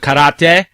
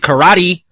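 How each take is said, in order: First: It is pronounced in a native-sounding way. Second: It is pronounced in an anglicized way. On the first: This is closer to the original language. "instead of karate" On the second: This is the usual Western way of saying it. "like in the West, they'll say karate"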